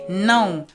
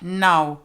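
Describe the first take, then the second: First: The vowel is pronounced through the nose. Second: The vowel is pronounced without nasal sound. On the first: The speaker calls it right. "Portuguese has nasal sounds" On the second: The speaker calls it wrong. "and not now"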